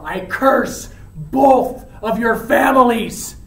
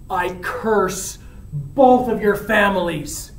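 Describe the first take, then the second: First: Slow curse, louder on each phrase; emphatic curse. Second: Slow, deliberate curse at usual pitch; measured curse. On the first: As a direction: hit CURSE, BOTH and FAMILIES hard. Dying curse repeated with force. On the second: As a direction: lay out the curse word by word. First paraphrase of dying curse. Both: Acted.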